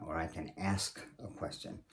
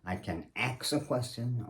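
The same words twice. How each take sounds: First: Said in the usual way. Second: "ask" said as "aks"; slang pronunciation. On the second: Shown as a demonstration. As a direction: swap the sounds in "ask": "aks a question".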